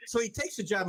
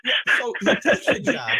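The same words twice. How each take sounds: First: Said in the usual way. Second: Breathy laugh through the words. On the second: Real, not acted. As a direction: laugh it out, still amused. Laughing after co-host's joke.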